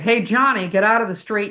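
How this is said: The shout sounds full, deep and projected. The speaker calls it right. "when you do diaphragmatic breathing and you can project"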